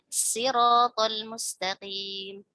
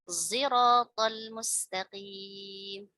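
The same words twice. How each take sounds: First: The first sound is a plain s sound. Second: The first sound blends s with a z quality. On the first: "ada yang membaca dengan sit sin ya" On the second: "ismam zai dan sad"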